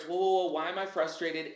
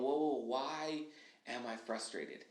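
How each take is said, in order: First: Hitting the brakes. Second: A slow self-check that fades much softer toward the end. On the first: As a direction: stop yourself with a lively jolt. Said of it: "I put on the brakes". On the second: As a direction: ease off and ask yourself gently. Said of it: "we're slowing down and we're going". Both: Shown as a demonstration.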